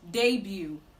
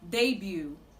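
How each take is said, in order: First: The final T is silent. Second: The same.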